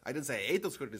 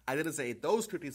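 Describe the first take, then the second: First: The stress is on the word 'ate'. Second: The stress is on the word 'those'. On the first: The speaker did something else to them. "I might have squashed them or trampled them or sold them" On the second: The speaker may have eaten other ones. "but maybe other ones"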